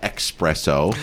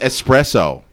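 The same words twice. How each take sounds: First: It has a ks sound after the first vowel. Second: It has a plain s sound after the first vowel. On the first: The speaker calls it wrong. "Not espresso. / where people use X's instead of S's" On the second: The speaker calls it right. "It's espresso"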